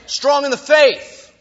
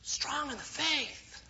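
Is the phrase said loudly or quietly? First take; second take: loudly; quietly. First: It is said loudly and forcefully. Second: It is said quietly and weakly. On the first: The speaker calls it right. "You've got to say it strong in the faith, okay, so people can hear you" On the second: The speaker calls it wrong. "But you wouldn't say it like"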